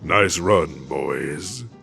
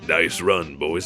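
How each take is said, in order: First: It is said in a put-on devilish character voice. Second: It is said in the speaker's ordinary voice. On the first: The speaker calls it right. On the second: The speaker calls it wrong.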